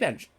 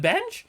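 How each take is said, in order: First: It is said at normal pitch. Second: It is said at a higher pitch.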